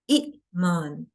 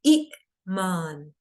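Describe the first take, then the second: First: A short vowel and a glottal catch precede the m. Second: The same.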